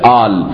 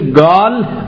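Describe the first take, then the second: First: The word begins with a glottal stop. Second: The word begins with a hard g sound. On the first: "میشه آل" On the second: "طرز بیان این میشه گال"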